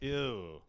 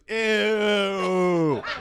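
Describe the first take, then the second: First: It is said in a plain, natural voice. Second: It is said in an exaggerated, put-on voice. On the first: The speaker calls it right. "there's a way to say ew naturally" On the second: The speaker calls it wrong. "Nobody goes"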